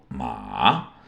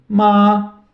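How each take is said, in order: First: Ma dipped very low; third tone. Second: Ma held high and level, loud; first tone. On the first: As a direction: drop ma deep into a low dip. (ma no terceiro tom, bem grave) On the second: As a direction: sing ma flat on a high pitch. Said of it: "o primeiro tom é o tom lá em cima". (ma no primeiro tom, alto e plano) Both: Shown as a demonstration.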